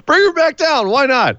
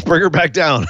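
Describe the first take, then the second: First: Squeaky, much higher mock plea; much higher repeat. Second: Laughing. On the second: Laughing suggestion. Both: Real, not acted.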